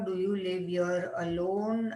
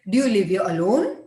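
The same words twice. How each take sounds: First: It is said flat, like a plain statement. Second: The pitch moves up and down like a question. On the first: It sounds like telling, not asking. The speaker calls it wrong. "now say this is like a prose" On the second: It sounds like a real question. The speaker calls it right. "This makes a question. This is inflection up and down"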